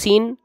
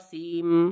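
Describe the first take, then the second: First: The word ends with an n sound, lips apart. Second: The word ends with an m sound, lips closed. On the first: The speaker calls it wrong. "होठ अलग कर कहो सीन, तो नून की आवाज आ रही है" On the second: The speaker calls it right. "होठ देखो मिलाओ सीम, तो मीम की आवाज आ रही है"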